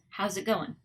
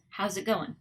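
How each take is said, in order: First: The words run together with reduced sounds. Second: The words run together with reduced sounds.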